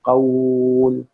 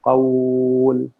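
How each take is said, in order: No difference in how they are said.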